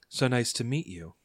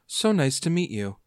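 First: It is said in the speaker's normal voice. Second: It is said in a put-on character voice.

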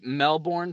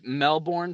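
First: The r sound is pronounced in the word. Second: The same.

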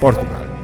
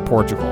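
First: It is said with a Spanish accent. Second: It is said with an American English accent. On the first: The speaker calls it right. "Yo hablo español" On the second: The speaker calls it wrong.

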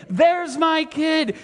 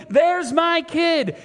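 Both takes have the same delivery.

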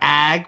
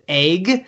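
First: The vowel is the open 'a' as in 'cat'. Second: The vowel is raised to sound like 'egg'. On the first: "instead of ag" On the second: "we pronounce it egg"

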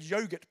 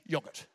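First: It is said in the speaker's ordinary pronunciation. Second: It is said in an imitated royal pronunciation.

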